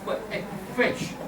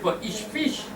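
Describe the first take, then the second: First: The word 'each' ends with a 'g' sound. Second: The word 'each' ends with a 'ch' sound. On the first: The speaker calls it right. "You say per egg fish" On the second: The speaker calls it wrong. "You don't say per each fish"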